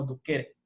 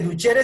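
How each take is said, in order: First: The middle consonant sounds like a k. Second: The middle consonant sounds like ch. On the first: This is the old classical pronunciation. "la pronunciación clásica sería algo así como duquere" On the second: This is the current pronunciation. "en latín actualmente se pronuncia eh, como si fuera una che"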